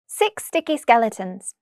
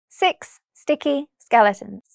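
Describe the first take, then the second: First: The phrase is said very quickly. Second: The phrase is said very slowly. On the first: "the second time very quickly" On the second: "once very slowly"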